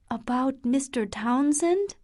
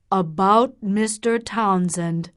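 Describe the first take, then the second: First: "Townsend" lifted in a questioning rise; rising question. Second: "About" stressed, falling to a flat close on "Townsend"; firm statement. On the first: Catherine checking what her father means, rising on "Townsend". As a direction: ask "about Mister Townsend?" with the voice climbing on "Townsend". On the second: Doctor confirming his question to Catherine, firm and falling. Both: A narrator's reading.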